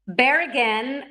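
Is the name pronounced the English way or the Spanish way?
English. The name is said with English sounds.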